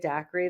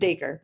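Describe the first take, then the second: First: The name sounds like the drink daiquiri. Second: The name sounds like Dacre, stressed first syllable. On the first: The speaker calls it wrong. "I was pronouncing it daiquiri the whole time" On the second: The speaker calls it right. "so Dacre"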